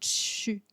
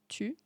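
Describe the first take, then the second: First: The t is followed by a hissing ts sound. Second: The t is a plain, crisp stop. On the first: "mais vraiment comme «tu»" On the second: "juste «tu»"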